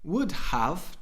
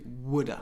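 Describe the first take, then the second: First: The word 'have' is said in full. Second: The word 'have' becomes a short 'a'. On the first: "Would have to" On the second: "to woulda"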